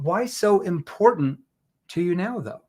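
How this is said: The word "important" carries the stress. The question focuses on why it matters at all. "Let's say if I emphasized um, important"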